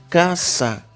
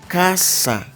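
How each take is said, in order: The two takes are said the same way.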